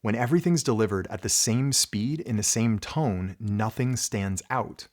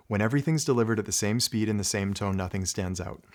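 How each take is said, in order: First: Slows down and stresses the key words; varied dynamics. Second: Same speed and tone throughout, a bit fast; flat rushed delivery. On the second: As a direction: rattle it off evenly with no emphasis. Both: Shown as a demonstration. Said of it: "If I say it like this, though".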